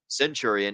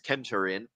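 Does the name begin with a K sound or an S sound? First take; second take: S sound; K sound. First: The name begins with a soft S sound. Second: The name begins with a hard K sound. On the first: The speaker calls it wrong. "Not Centurion" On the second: The speaker calls it right. "it's Kenturian because I speak a little bit of Latin"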